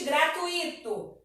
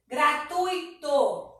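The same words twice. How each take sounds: First: Gratuito as gra-tu-I-to; incorrect pronunciation. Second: Very slow gratuito: gra, TUI, to; correct pronunciation. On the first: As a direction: stress a separate I in gratuito. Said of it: "Não existe". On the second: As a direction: stretch gratuito in three beats, stressed U. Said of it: "Eles ficam juntos na pronúncia". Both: Shown as a demonstration.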